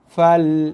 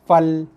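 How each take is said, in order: First: The vowel is held for a full beat. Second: The vowel is clipped quickly and short. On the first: The speaker calls it right. "Dibaca dengan kadar satu harakat" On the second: The speaker calls it wrong. "Fa dibunyikan dengan laju pantas tak cukup satu harakat"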